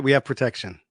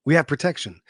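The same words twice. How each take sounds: First: "we" leaned on, rest dropping soft; weight on "we", then fall away; stress on we. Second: "have" leaned on after a pause; stress on have. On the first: Grateful viewer seeing military at the corner, stressing "we". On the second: Grateful viewer seeing military at the corner, stressing "have". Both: Acted.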